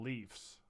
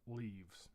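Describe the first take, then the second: First: The word ends with an f sound. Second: The word ends with a v sound. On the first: The speaker calls it right. "I said it correctly" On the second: The speaker calls it wrong. "It's not leaves"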